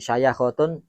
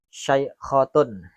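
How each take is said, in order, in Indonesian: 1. Huruf 'y' diikuti vokal 'a'. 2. Huruf 'y' tidak diikuti vokal. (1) "bifathil ya"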